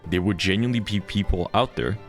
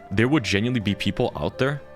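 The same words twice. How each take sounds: The two takes are said the same way.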